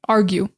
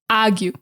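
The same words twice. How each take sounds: First: Said in a standard American accent with the R. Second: Said in a Boston accent, R replaced by ah. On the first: "standard American English, we just say argue" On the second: "get rid of the R and replace it with ah"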